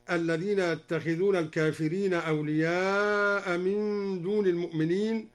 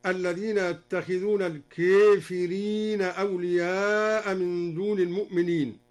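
First: Said in the usual way. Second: "الكافرين" as al-keefirin; imala. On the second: Shown as a demonstration. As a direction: tilt the long a of "الكافرين" toward e. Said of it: "أمال الكافرين هكذا".

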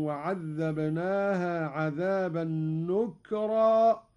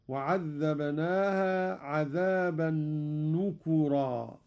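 First: Said in the usual way. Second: نكرا with the kaf voiced with u, nukura; Qalun reading. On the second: Shown as a demonstration. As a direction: stretch نكرا as nu-ku-ra, damma on the kaf. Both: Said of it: "قرأ قالون بضم الكاف هكذا".

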